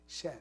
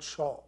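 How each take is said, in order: First: The word ends in a soft 'ay' vowel. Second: The word ends in a rounded 'aw' vowel. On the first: The speaker calls it right. "An empty mouth, shay" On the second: The speaker calls it wrong. "not shaw"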